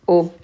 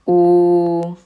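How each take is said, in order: First: The vowel is kept short. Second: The vowel is held long. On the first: "And do we see a short vowel in this one?" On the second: "We have a wow. And how do we pronounce the wow?"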